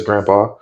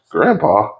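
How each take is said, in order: First: Said in the usual way. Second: GRANDPA swooping up then falling in disbelief; crew's baffled echo. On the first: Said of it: "Luffy says". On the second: Retold or imitated. Crew reacting to the captain's reveal, baffled echo. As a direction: imitate a puzzled crew echoing "Grandpa?". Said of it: "Then Zoro, Nami, and Usopp are like".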